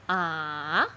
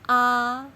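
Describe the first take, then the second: First: The pitch dips down and then rises. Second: The pitch stays high and level. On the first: "rated down and then up" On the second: "The first tone is like we sing do"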